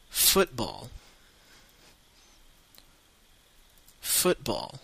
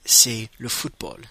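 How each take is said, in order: First: Football in a British accent, FOOT-ball; football with an English accent, not the teacher's French one. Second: Said in the usual way. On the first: Shown as a demonstration. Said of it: "avec un accent anglais, pas comme le mien". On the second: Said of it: "pas comme le mien".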